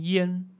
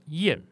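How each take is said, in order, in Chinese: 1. 这个音节是高平调。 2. 这个音节是急降调。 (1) "要读作一声烟" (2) "不读作四声燕子的燕"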